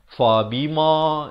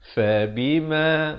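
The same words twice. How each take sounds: First: The vowel is broad, with a wide-open mouth. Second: The vowel is soft and not opened wide. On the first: The speaker calls it wrong. "itu tak mahu" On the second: The speaker calls it right. "bunyinya lembut"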